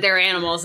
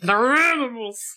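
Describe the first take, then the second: First: It is said with the teeth apart. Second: It is said through clenched teeth.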